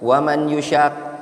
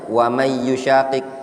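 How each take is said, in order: First: The n is pronounced clearly before the y. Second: The n merges into the following y sound. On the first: The speaker calls it wrong. "dia nggak diidghamkan" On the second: The speaker calls it right. "idgham kan bacanya"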